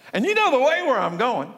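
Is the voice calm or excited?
excited. It is said in a raised, excited voice.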